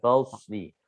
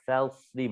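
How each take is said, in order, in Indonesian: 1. Konsonan pertama tebal dan berat. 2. Konsonan pertama ringan dan tipis. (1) "bukan falsli; jangan menebal" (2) "Fa, fa, falsli"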